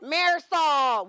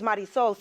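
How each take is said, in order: First: The name is said with anglicized sounds. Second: The name is said with Spanish sounds. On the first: The speaker calls it wrong. "no one could pronounce it correctly ever" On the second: The speaker calls it right. "say it like this"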